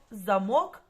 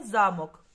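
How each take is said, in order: First: Замок with stress on the final syllable, za-MOK; stress on second syllable. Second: Замок with stress on the first syllable, ZA-mok. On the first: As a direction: lean on МОК in замок. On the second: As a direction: lean on ЗА in замок. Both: Shown as a demonstration. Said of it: "слово замок або замок".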